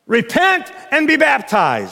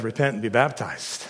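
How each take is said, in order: First: "be baptized" driven home slowly; emphasis on BAPTIZED. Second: Said in the usual way. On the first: Shown as a demonstration. Preacher shows the ritualist's emphasis, stressing "baptized.". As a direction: punch "baptized." as hard as "Repent". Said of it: "the ritualist is gonna put the emphasis on baptism".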